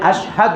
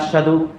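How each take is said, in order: First: The middle is said with a clear h sound. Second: The middle is said with a doubled d sound. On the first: I bear witness. The speaker calls it right. "কিন্তু হবে আশহাদু, আমি সাক্ষ্য দিচ্ছি" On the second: I am hard. The speaker calls it wrong. "কিন্তু আপনারা বলেন আশহাদু। আশহাদু হলে আমি কঠিন"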